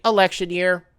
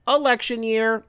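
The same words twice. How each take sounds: First: Said in the usual way. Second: "Election" higher, emphatic on the repeat; stress on election. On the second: Real, not acted.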